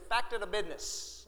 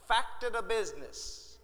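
First: Fact and of run together into one word. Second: Fact and of are said as separate words. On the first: "Facta, that's one word. Duh, business" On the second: "Actually, he didn't say it that way"

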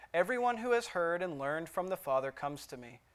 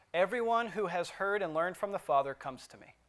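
The two takes are said the same way.

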